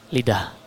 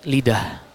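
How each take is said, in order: No difference in how they are said.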